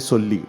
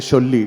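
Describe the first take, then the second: First: The word begins with an 's' sound. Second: The word begins with a 'sh' sound. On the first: The speaker calls it right. "you say Solli" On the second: The speaker calls it wrong. "don't say Sholli"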